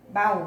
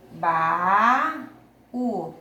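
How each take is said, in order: First: The word is said smoothly without a break. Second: The two syllables are said with a break between. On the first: "O U aqui é tônico" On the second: "quando eu separo as sílabas, ficam em sílabas diferentes"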